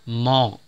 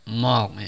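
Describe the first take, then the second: The two takes are said the same way.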